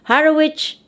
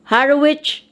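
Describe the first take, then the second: Both takes have the same delivery.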